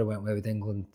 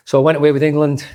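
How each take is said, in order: First: Said in the usual way. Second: Emphatic, louder. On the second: Real, not acted. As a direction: say it loud and higher, with a rueful punch. Emphatic retelling of the outcome.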